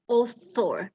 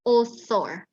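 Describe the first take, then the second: First: "author" said with a hard t, "otor"; wrong t sound. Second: "author" with th as in think, "oθor"; correct th. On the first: ("author" salah, dibaca otor) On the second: ("author" dengan bunyi th) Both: Shown as a demonstration. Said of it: "jangan author, salah".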